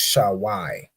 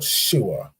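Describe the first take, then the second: First: The name ends in an 'ai' sound. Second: The name ends in a plain 'a' sound. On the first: This is the name as the speaker holds it should be. The speaker calls it right. "But it's Shawai" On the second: The speaker calls it wrong. "The way you pronounce this is he'd say Sua or Shua"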